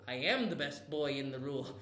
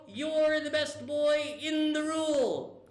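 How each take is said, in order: First: Much lower and softer, smug; low hushed echo. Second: Said in the usual way. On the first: Shown as a demonstration. Caillou echoing a compliment in a low smug murmur. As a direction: repeat it back in a low, self-satisfied murmur.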